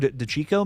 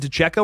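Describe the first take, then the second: First: The middle syllable sounds like 'cheek'. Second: The middle syllable sounds like 'check'.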